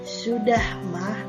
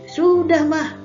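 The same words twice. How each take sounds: First: It is said calmly and gently at normal pitch. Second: It is said sharply in a raised, high voice. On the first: The child answers the parent respectfully. The speaker calls it right. "kalian jawabannya harus dengan sopan" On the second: The child answers the parent disrespectfully. The speaker calls it wrong. "menjawab dengan nada yang"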